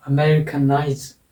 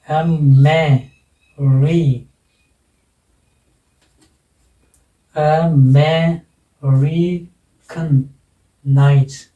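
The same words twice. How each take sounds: First: Said in the usual way. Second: "American nights" drawn out slowly, piece by piece; syllable by syllable. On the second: Shown as a demonstration. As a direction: break "American nights" into long separate syllables. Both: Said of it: "कितने syllable हो गए?".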